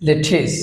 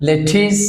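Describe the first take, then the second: Both takes have the same delivery.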